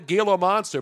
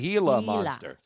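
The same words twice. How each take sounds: First: Gila starts with a hard G sound. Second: Gila starts with an H sound. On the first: The speaker calls it wrong. "I call it the Gila Monster" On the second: The speaker calls it right. "it's really the Gila Monster"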